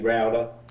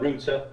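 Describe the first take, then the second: First: It is said with an American accent. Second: It is said with a British accent. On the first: "you say router" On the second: "we say"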